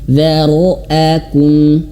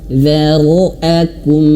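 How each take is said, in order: The two takes are said the same way.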